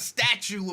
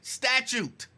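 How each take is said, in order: First: The word ends like statue, without a second t. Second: The word ends with a t sound after the u. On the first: The speaker calls it wrong. "It's not a statue of limitations" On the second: The speaker calls it right.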